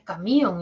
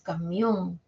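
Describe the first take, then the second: First: The i sounds stronger than the o. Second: The o sounds stronger than the i. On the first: The speaker calls it wrong. "no es camión" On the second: The speaker calls it right. "La O suena más"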